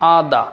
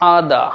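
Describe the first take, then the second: First: The final r sound is silent. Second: The same.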